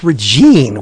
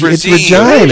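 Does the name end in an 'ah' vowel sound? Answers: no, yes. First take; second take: no; yes. First: The name ends without a final 'ah' vowel. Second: The name ends with a final 'ah' vowel. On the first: The speaker calls it wrong. "It's not Regine" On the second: The speaker calls it right. "it rhymes with vagina"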